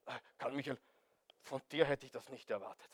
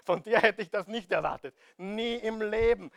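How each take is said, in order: First: Low, soft, understated mock dismay; mock surprise. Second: Emphatic mock disbelief; mock surprise. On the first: Preacher voicing a supposedly surprised God to Karl Michael, low mock surprise. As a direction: quietly act taken aback. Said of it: "er ist überrascht". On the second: Preacher acting out a God who never expected this, emphatic mock surprise. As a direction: act astonished, firm and full-voiced. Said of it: "Glaubst du wirklich, dass Gott überrascht ist?".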